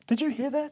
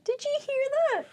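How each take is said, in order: First: Much higher, small faraway voice; a tiny voice from far away; far-off listener. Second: Much higher mock echo; echoed far-off voice. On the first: Retold or imitated. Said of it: "someone goes". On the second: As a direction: repeat it as a tiny distant voice.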